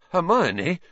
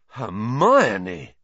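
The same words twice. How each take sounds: First: High, questioning, feeble call; weak protest. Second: Drawn-out amazed exclamation, falling at the end; stunned and impressed. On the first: Ron trying to restrain Hermione, weakly. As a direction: call her name weakly, pitch rising. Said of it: "said Ron weakly". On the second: Ron marvelling at Hermione's outburst, stunned and impressed. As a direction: say her name in awed disbelief. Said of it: "sounding both stunned and impressed". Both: A narrator's reading.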